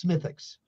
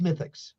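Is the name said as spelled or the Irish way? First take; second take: Irish way; Irish way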